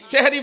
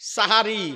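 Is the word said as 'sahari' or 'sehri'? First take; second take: sehri; sahari. First: It is said with two syllables, seh-ri. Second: It is said with three syllables, sa-ha-ri. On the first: The speaker calls it wrong. "সেহরি বলবেন না" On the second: The speaker calls it right. "ভোর রাতের খাবারটাকে আমরা বলি সাহারি"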